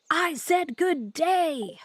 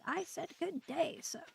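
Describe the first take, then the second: First: Loud, slow, each word hammered; furious repeat. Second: Mock otter. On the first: Acted. Streamer quoting Wonka's famous refusal, slow furious shout. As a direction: bellow the dismissal like an outraged Wonka. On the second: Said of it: "He's like".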